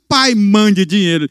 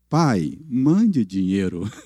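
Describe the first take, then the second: First: It sounds rude and demanding. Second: It sounds humble and pleading.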